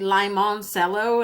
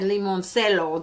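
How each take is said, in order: First: The word is pronounced the English way. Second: The word is pronounced the Spanish way. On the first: The speaker calls it right. "it's actually limoncello" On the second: The speaker calls it wrong. "if I was to pronounce this in Spanish, I would have said limoncello"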